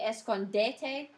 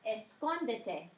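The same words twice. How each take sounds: First: The stress is on the third syllable. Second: The stress is on the second syllable. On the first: The speaker calls it wrong. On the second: The speaker calls it right.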